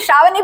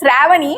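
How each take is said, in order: First: The name is said in a North Indian pronunciation. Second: The name is said in its original pronunciation. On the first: This is how classmates taught her to say it. "I am calling it Shravani because that's how they induced it at my grade" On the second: This is the name's true form. "It is Shravani"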